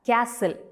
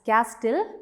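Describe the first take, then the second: First: The T sound is left out completely. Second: The T sound is pronounced in the middle. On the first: The speaker calls it right. "we have to pronounce it as castle. So when we pronounce, the letter T is silent there" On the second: The speaker calls it wrong. "we don't read the word as castle"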